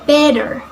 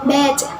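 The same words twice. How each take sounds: First: It is spoken with an American accent. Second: It is spoken with a British accent. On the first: "American accents" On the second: "In British accents"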